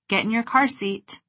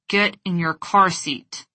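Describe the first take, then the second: First: It is said in a relaxed, warm tone. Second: It is said through clenched teeth, seething. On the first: "With a relaxed face and a warm tone of voice" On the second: "With clenched teeth, squinted eyes, and a seething tone of voice"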